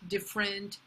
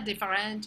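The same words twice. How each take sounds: First: The stress falls on the first syllable. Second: The stress falls on the last syllable. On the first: The speaker calls it right. "it's different" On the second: The speaker calls it wrong. "C'est pas different"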